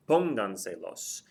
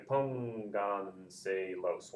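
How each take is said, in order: First: Said in the usual way. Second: Pónganselos very slowly split as pón-gan-se-los; pónganselos drawn out for counting syllables. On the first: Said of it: "The stress is over the O". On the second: Shown as a demonstration. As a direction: stretch pónganselos into four soft beats. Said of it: "One, two".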